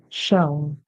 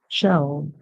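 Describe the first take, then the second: No difference in how they are said.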